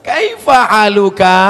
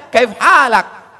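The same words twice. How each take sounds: First: Kaifa haluka called out loud and slow; classroom Arabic, loud. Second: Kaif halak said high, loud and very slow in Saudi style; Saudi Arabic. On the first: Preacher contrasting textbook Arabic with Saudi, loud and slow. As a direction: proclaim the textbook greeting slowly. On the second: Preacher showing the Saudi greeting to listeners, loud and slow. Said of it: "Sampai ke Saudi Arabia". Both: Shown as a demonstration.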